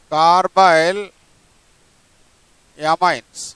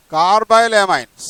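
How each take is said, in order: First: Carbyl with a rise, a pause, then amines falling; carbyl, then amines, as separate dictated parts; split into parts. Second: Carbyl amines said slowly as one name; slow, clear dictation of carbyl amines. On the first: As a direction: break carbyl amines into carbyl and amines, pausing between. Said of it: "దీన్ని ఏమనాలి అంటే carbyl amine". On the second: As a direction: read out carbyl amines slowly for the class to copy. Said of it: "nitrile అని పలకాలి". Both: Shown as a demonstration.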